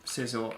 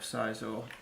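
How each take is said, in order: First: The name is said the commonly heard way. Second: The name is said to sound like Scyther. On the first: The speaker calls it right. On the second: The speaker calls it wrong.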